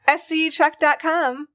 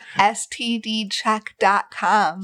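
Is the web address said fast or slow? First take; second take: fast; slow. First: The address is said quickly and blurred. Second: The address is said slowly and clearly. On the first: The speaker calls it wrong. "You get so fast" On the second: The speaker calls it right. "Say it slower"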